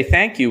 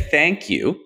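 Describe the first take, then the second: First: "thank you" pitched high, with an exclamation point. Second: "thank you" ended on a falling tone, like a full stop; thank you with a period. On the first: Host showing how a texted "thank you" reads, exclaimed high. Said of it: "with an exclamation point". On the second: Host showing how a texted "thank you" reads, ending as with a period. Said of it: "with a period". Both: Shown as a demonstration.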